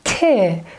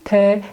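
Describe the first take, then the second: First: The T sound is strong and intense. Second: The T sound is light, English-like. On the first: The speaker calls it right. "more intensively T" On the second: The speaker calls it wrong. "We don't say T like in English"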